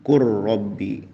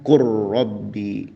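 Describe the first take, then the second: First: The L merges into a doubled R sound. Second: The same.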